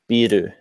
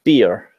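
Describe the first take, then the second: First: It is said as two Japanese-style syllables. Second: It is said as a one-syllable English word.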